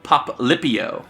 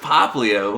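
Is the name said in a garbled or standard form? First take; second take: garbled; standard. First: The name is said in a garbled form. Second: The name is said in its standard form. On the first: A child is imitated getting the name wrong. The speaker calls it wrong. "He also mispronounces Pokemon names" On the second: The name is given correctly. The speaker calls it right. "no, it's Poplio"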